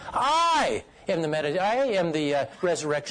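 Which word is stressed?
I. The stress falls on the word "I". It is this particular person who is the resurrection. "I might emphasize each word"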